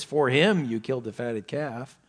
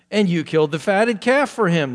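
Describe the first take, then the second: First: "For him" up front and stressed, rest dropping away. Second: Loud, raised protest landing on "for him"; emphatic accusation. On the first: Shown as a demonstration. Teacher shows the son's grudge, stressing "For him". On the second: Retold or imitated. Elder son protests the fatted calf for brother, emphatic on "for him". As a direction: throw weight onto "for him" at the end. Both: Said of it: "There's the emphasis".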